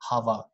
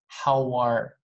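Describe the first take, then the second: First: The vowel in 'how' is distorted, not a clear ow. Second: The vowel in 'how' is a clear ow glide. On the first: The speaker calls it wrong. "A lot of people say" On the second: The speaker calls it right. "but it's how are"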